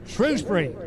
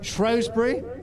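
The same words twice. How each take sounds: First: The name is given the speaker's own pronunciation. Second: The name is given its other, local pronunciation.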